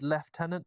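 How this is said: It is said with an f sound: leftenant.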